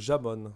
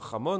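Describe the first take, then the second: First: The first sound is a soft French J. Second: The first sound is a rough throaty H.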